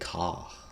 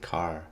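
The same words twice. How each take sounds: First: The final R is dropped, British style. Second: The final R is pronounced.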